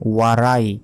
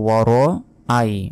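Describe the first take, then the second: First: The vowels run together with no glottal break. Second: A glottal break separates the vowels. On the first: The speaker calls it wrong. "ওয়ারাই যদি বলি" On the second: The speaker calls it right. "বলতে হবে ওয়ার আই"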